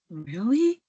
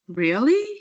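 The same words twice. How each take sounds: First: It sounds bored or sarcastic. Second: It sounds surprised. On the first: The speaker is uninterested or sarcastic. "could be like boredom or sarcasm" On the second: The speaker is surprised. "is showing surprise"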